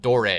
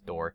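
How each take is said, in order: First: The name ends with an added 'ay' vowel. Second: The name sounds like the word door. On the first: The speaker calls it right. "is the correct pronunciation" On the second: The speaker calls it wrong. "his name is Door"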